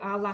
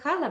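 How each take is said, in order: First: The word begins directly with a vowel. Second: The word begins with an h sound. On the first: This is the left-bank dialect form. "в левобережье" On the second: This is the literary standard form. "литературная"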